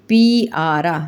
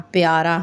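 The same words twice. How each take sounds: First: پی آرا broken into two parts with a gap; split wrong pronunciation. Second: پیارا said smoothly as one word; correct blended pronunciation. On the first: Teacher shows young pupils the wrong way, split apart. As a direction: sound out پی آرا as a mistaken split. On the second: Teacher models the right way for pupils, smoothly blended. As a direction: glide پیارا together in one breath. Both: Shown as a demonstration. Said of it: "پے آرا تو نہیں کہتے نا".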